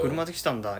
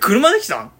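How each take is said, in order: First: It is said in a flat, even tone. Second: It is said with lively, varied intonation. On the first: The speaker calls it wrong. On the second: The speaker calls it right.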